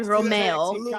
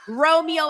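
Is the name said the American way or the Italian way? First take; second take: Italian; American. First: The name is said with an Italian pronunciation. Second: The name is said with an American pronunciation. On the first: "in Italy, you would say Romeo" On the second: "that's like the American way of saying it"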